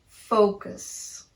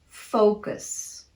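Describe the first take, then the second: Both takes have the same delivery.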